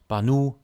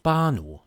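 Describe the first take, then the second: First: The stress is on the second syllable. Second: The stress is on the first syllable. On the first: The speaker calls it wrong. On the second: The speaker calls it right. "A is the strongest vowel here, so it's pronounced"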